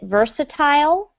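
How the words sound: It is said with a British pronunciation. "Some people in England might pronounce it versatile"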